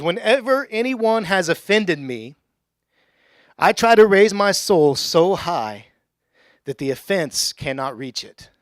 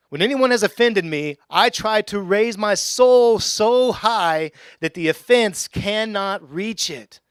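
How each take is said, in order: First: Slow, weighty reading of the quote; slow solemn quote. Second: Higher, louder and very slow, soul stretched; emphatic repeated quote. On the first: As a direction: lay each word down deliberately. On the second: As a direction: preach it again with full force. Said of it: "In other words". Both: Shown as a demonstration.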